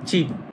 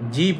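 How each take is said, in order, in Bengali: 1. শব্দটি একটি tensed ch ধ্বনি দিয়ে শুরু হয়। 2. শব্দটি একটি সাধারণ j ধ্বনি দিয়ে শুরু হয়। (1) "তখন হবে চিপ" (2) "তখন আর জিপ হবে না"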